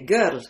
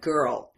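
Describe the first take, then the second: First: It is said with a foreign accent. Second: It is said with an American accent.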